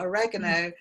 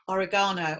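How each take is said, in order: First: It is pronounced the American way. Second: It is pronounced the speaker's own, British way.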